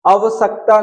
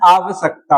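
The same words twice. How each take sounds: First: आवश्यकता with loose extra vowels, "avasakta"; wrong form. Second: आवश्यकता with long first aa, "aavsakta"; correct form. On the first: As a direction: start आवश्यकता short: "a-va-sak-ta". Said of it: "आवश्यकता नहीं होता". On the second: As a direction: lean on the opening of आवश्यकता. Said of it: "आवश्यकता होता है". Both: Shown as a demonstration.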